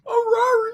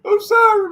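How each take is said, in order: First: It is said in a Scooby-Doo voice. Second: It is said in a normal pleading voice.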